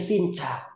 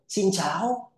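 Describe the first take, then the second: First: It is said with native Vietnamese tones. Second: It is said with foreign-sounding, off tones. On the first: "If we say xin chào" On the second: "for foreigners, they say xin chào"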